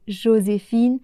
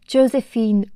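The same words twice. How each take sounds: First: It is said with a French accent. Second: It is said with an English accent. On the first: "au lieu de" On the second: "avec un accent anglais"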